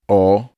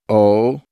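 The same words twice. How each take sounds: First: The vowel is open, like in cost. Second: The vowel is closed, like in cozy. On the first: "open O as in cost" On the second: "Closed O as in cozy"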